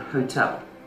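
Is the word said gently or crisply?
crisply. The word is said crisply with firm sounds.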